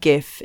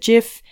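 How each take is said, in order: First: The word begins with a hard G sound. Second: The word begins with a soft J sound. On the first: It names the animated image format. "GIF is spelt with a G" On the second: It names a bathroom cleaning product. "a bathroom product spelt with a J"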